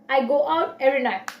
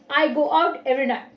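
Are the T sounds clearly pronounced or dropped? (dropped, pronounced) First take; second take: dropped; dropped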